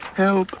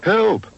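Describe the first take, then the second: First: It is said quietly. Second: It is said loudly.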